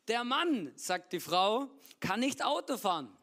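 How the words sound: It pauses after Mann and after Frau.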